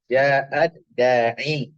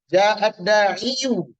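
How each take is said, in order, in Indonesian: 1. Kata terakhir berakhir dengan vokal 'i'. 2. Kata terakhir berakhir dengan tambahan vokal 'u'. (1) "Jadi dibaca ja'ad da'i. Itu aja"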